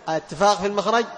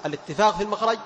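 Both takes have the same delivery.

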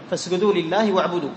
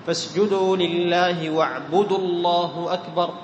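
First: Said in the usual way. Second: Slow recitation, واعبدوا runs into الله as "wa'budu-llah"; long vowel dropped. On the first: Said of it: "إذا وصلت بالتكبير". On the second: Shown as a demonstration. Teacher demonstrates joining sura to takbir, long vowel dropped. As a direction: chant it drawn out, short u joining واعبدوا to الله. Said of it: "يحذف حرف المد".

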